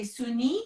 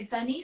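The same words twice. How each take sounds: First: Sunny said as Suni, with an oo; French-accented name. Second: Said in the usual way. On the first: Shown as a demonstration. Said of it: "You say Suni". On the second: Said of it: "I have to say my name with a French accent".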